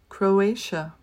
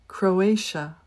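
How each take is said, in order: No difference in how they are said.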